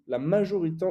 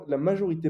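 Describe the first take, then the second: First: Majorité slurred and swallowed into a mumbled la aʒi; a tongue-tripped majorité, half the syllables lost; fumbled majorité, quickly dropped; garbled slip. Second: Said in the usual way. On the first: Real, not acted.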